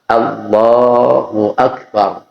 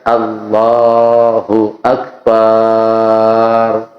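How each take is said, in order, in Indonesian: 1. Vokal setelah 'b' pada akbar itu pendek. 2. Vokal setelah 'b' pada akbar itu panjang. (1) "Pasnya begitu" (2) "Paknya dibaca panjang"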